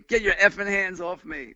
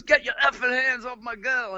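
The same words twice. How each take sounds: First: Mild imitated English accent, slurred and tipsy; a drunk Englishwoman snapping at the narrator, mildly mimicked in an English accent. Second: Higher, rough threat in an imitated angry voice; the boyfriend snarls from the railing, moderately acted. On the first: Nancy at the Chelsea cursing at the helper, light English accent. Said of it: "with an English accent, but drunk". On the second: A punk musician yells down at the narrator holding Nancy, imitated angry threat. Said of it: "He goes".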